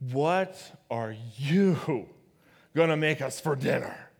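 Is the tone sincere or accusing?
accusing. It is said in an accusing tone.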